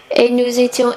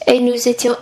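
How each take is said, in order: Both takes have the same delivery.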